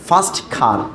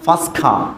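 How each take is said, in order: First: The t at the end of first is pronounced. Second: The t at the end of first is dropped.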